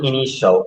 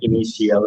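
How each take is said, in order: First: The ending sounds like 'shal'. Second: The ending sounds like 'shiyal'. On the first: The speaker calls it right. "এটা শিয়াল না, এটা হচ্ছে শল" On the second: The speaker calls it wrong. "T I A এল থাকলে হবে শিয়াল"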